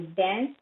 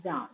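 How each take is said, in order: First: "dance" with a front a, as in cat; American vowel. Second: "dance" with a long open ah; British vowel. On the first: Teacher contrasting word pairs, American "dance" with front a. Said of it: "dance in American". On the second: Teacher contrasting word pairs, British "dance" with ah. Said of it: "or dance in British accent". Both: Shown as a demonstration.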